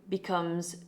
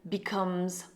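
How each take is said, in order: The two takes are said the same way.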